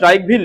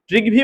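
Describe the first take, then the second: First: The first syllable has an 'eye' diphthong. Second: The first syllable has a short 'ee' vowel. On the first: "T R I ট্রাইও হয়" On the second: "T R I ট্রি হয়"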